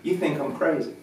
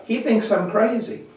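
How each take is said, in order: First: Light teasing at normal volume; playful, not mean. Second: High, raised public announcement; addressing a crowd. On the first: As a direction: tease him gently, smiling. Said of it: "I didn't say it mean". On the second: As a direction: playfully announce it to everyone. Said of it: "said to the whole crowd". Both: Retold or imitated.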